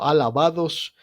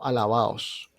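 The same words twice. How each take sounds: First: The d before the ending is fully pronounced. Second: The d before the ending is dropped. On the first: The speaker calls it wrong. "no alabados" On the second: The speaker calls it right. "sino alabados. Alabaos, porque se pronuncia en costeño"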